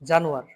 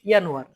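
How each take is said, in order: First: The word begins with an English J sound. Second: The word begins with a Y sound. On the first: It is read the English way. The speaker calls it wrong. "এটা ইংরেজি করে নিই।" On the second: It is read the German way. The speaker calls it right. "এটা কিন্তু আসে ডয়েচে ইয়ানোয়ার"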